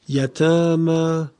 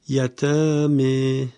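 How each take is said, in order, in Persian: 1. مصوت پایانی a بلند و باز است. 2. مصوت پایانی به سمت e متمایل است.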